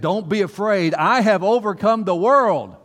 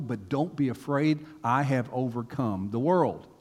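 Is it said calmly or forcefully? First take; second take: forcefully; calmly. First: It is said loudly and forcefully. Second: It is said in a calm, ordinary voice.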